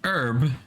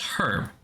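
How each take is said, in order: First: The word starts with a vowel, H silent. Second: The word starts with a clearly pronounced H. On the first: "closer to French" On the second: "what the English say"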